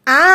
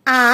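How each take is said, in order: First: "আ" drawn out long; a lengthened, sustained "আ"; long vowel. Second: "আ" with little drawl; a brief, lightly held "আ"; short vowel. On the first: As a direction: stretch and hold "আ". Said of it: "এটা একটু দীর্ঘ টান হবে". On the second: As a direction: keep "আ" short, barely stretched. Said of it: "এটা একটু কম টান". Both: Shown as a demonstration.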